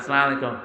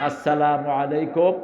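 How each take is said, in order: First: The first word ends without a final u vowel. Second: The first word ends with a final u vowel. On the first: The speaker calls it wrong. "একটা সালামও ঠিক মতো দিতে পারে" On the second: The speaker calls it right. "সালামটা কিভাবে উচ্চারণ করবেন?"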